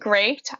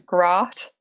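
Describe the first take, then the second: First: The vowel is the usual 'ay' sound. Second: The vowel is a short 'o' sound. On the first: "So the word great" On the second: "I say it as grot"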